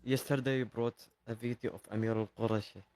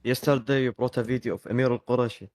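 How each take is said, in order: First: Quiet. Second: Repeated louder, more clearly; louder for someone hard of hearing. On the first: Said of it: "Can you speak louder". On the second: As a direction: speak up so the host can hear. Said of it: "Can you speak louder?". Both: Real, not acted.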